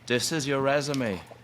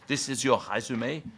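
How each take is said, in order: First: It is said in the speaker's ordinary accent. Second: It is said in a strong French accent.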